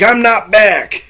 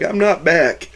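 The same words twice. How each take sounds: First: High, drawn-out mock protest; emphatic denial. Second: Higher-pitched but unforced mock protest; milder denial. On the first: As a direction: stretch it out in insistent objection, imitating him. Bill refuses the welcome back. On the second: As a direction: repeat the objection lightly, imitating him. Same denial retold more softly.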